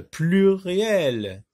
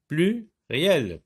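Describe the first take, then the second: First: Pluriel stretched slowly as one word; long, connected pluriel; drawn-out example word. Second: Pluriel broken into plu, pause, riel; two separate beats for Pluriel; split into syllables. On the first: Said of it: "Plusieurs, par exemple". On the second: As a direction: isolate PLU at the start of Pluriel. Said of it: "la syllabe plus peut se trouver". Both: Shown as a demonstration.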